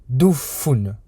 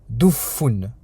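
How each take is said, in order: No difference in how they are said.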